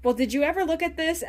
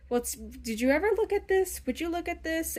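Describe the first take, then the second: First: Higher and louder, laughing through it; giddy, flustered after being flirted back with. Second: Lightly voiced awkward nerd, pitch a bit higher; a hint of a nerdy guy showing something off; nerdy guy with glasses. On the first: Retold or imitated. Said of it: "the person flirts back and they're like". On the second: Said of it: "that guy with the glasses going like".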